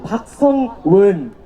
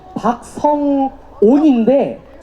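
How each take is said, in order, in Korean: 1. 마지막 음절은 "won"으로 발음됩니다. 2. 마지막 음절은 "on"으로 발음됩니다. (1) "자꾸 박성원, 박성은, 박성웅, 이런 식으로 다들 발음을 하시거든요"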